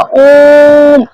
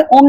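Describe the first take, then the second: First: ओम with the ओ drawn out three times long; prolonged vowel. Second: Said in the usual way. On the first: Shown as a demonstration. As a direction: stretch the ओ in ओम, slow and louder. (ओम में ओ को तिगुना खींचकर बोलें) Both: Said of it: "अब हमें इसे खींचना होगा".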